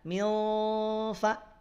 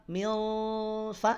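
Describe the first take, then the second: The two takes are said the same way.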